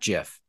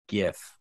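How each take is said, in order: First: The word begins with a soft J sound. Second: The word begins with a hard G sound. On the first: The speaker calls it wrong. "that makes me think of peanut butter" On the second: The speaker calls it right. "because it's a G"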